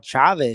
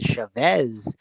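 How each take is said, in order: First: The stress is on the first syllable. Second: The stress is on the last syllable.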